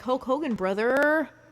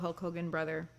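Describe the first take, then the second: First: Brother is said with strong, drawn-out emphasis. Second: Brother is said plainly, without extra emphasis.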